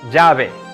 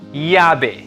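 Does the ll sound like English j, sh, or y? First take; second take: j; y. First: The ll sounds like a soft English j. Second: The ll sounds like English y. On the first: "similar to the soft J as in the English name Jack" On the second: "The double L most often sounds like Y, or like the Y in the English word yellow"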